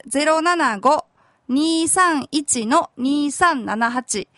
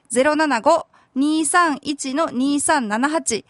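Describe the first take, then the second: First: Slow dictation. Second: Number read out again, slowly. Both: Shown as a demonstration. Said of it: "電話番号は".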